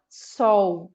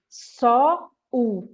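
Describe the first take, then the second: First: SOL as one drawn-out glide, SOU; joined as one syllable. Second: SOL broken in two as SO... U; drawn-out SO, a pause, then a separate U; wrongly split syllable. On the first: Teacher adjusting the child's speech, one smooth long syllable. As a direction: run SOL together in a single long syllable. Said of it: "você fala sol". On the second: Teacher showing the split to avoid in speech, two detached sounds. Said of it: "Pra não fazer só o". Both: Shown as a demonstration.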